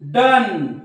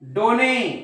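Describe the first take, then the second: First: It is said as one syllable, 'dun'. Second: It is said as two syllables, 'do-neh'. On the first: The speaker calls it right. "उच्चार हा अ होतो" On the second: The speaker calls it wrong. "असं म्हणू नका"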